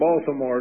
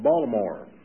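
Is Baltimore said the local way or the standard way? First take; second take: standard; local. First: The city name is said the standard way. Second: The city name is said the local way. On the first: This is how outsiders say it. The speaker calls it wrong. "up there, you don't say Baltimore" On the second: This is how locals say it. The speaker calls it right. "You say Baltimore"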